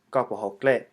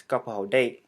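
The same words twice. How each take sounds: First: "Ka po ho gle", ending on a gl cluster; green dialect pronunciation. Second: "Ka po ho date", ending on a plain d sound. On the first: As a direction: say "Ka po ho gle" as green Hmong, last word "gle". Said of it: "the green dialect". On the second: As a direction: model sentence with "date" starting on d, no l. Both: Shown as a demonstration.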